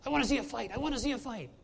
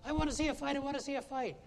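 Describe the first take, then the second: First: Eager, high, loud cry for a fight; excited. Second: Much higher, loud, eager cry for a fight; excited. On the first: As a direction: shake a fist and beg for a brawl, high and loud. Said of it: "turned to me and said very excitedly". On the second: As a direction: plead for a brawl like a thrilled fan, high and loud. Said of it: "she said". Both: Retold or imitated. Woman in the hockey box begging excitedly for a fight.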